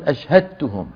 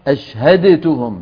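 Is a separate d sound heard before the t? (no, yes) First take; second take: no; yes. First: The d merges fully into a doubled t. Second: The d is pronounced separately before the t. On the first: The speaker calls it right. "يقولون أشهدتهم" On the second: The speaker calls it wrong. "ولا يقولون أشهدتهم"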